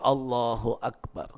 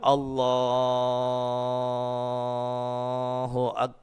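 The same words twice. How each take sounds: First: The phrase is said short and quick. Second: The phrase is stretched out very long. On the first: The speaker calls it right. "Pendek saja" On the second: The speaker calls it wrong. "Kadang-kadang imam itu terlalu panjang"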